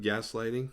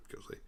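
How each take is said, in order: First: "gaslighting" said properly as gas-lighting; corrected word. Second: "Ghostlight" muttered much softer as a misspoken word; slip of the tongue. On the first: Correcting the slip to the listener, says "gaslighting" plainly. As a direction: fix the slip and say "gaslighting" clearly. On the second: Catching a slip while recapping, mutters "Ghostlight" softly. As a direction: quietly repeat the slip "Ghostlight" before correcting it. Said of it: "opposite of gaslighting". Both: Real, not acted.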